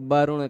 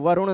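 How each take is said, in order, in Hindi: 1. यह शब्द ब की आवाज़ से शुरू होता है। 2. यह शब्द व की आवाज़ से शुरू होता है। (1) "बहुत सारे लोग व को ब की तरह बोल देते हैं" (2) "वरुण नहीं कहेंगे"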